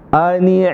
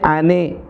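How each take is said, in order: First: The word ends with an i vowel. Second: The word ends with an e vowel. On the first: The speaker calls it right. "Intonasi i bahasa kita" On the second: The speaker calls it wrong. "Termasuk di sini ane, e, enggak bisa"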